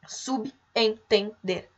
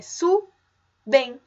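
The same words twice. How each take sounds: First: "subentender" slowly as sub, en, ten, der; syllable by syllable "subentender", with sub kept whole; mistaken syllable split. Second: "subentender" slowly as su, ben, ten, der; syllable by syllable "subentender", b joined onto en; corrected syllable split. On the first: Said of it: "muitas pessoas acham que o correto é separar". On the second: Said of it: "Mas não, é subentender". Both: Shown as a demonstration.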